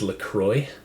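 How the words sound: The name is said with an American pronunciation. "That'd be the American pronunciation"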